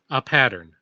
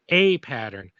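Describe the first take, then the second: First: The word 'a' is a weak 'uh' sound. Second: The word 'a' is said like the letter. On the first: It means some pattern, one that happened. "one means a pattern, as in there is a pattern that happened" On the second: It means the first in a series. "means like a pattern, like like instead of B pattern, C pattern"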